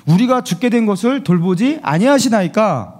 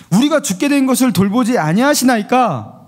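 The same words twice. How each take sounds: First: Said in the usual way. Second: Higher, pleading reproach in "우리가 죽게 된 것을"; emotional plea. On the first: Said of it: "감정이 실린 언어로 이렇게 표현하고 있어요". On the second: Shown as a demonstration. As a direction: plead with hurt feelings. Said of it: "여기에 뭔가 감정이 실려 있죠?".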